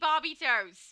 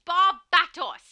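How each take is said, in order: First: The name sounds like 'Barbie toes'. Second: The name sounds like 'Barbatos'. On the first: The speaker calls it wrong. "Gemini said Barbie toes. Why would you do that?" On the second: The speaker calls it right. "There is correct pronunciation"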